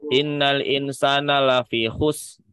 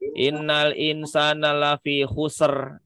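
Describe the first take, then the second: First: The final r sound is left out entirely. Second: The final r is said with an added extra sound. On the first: A letter of the word is lost. "Yang tidak boleh itu ngilangin huruf" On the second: A sound is added that does not belong. "kelebihan jadi tawalud"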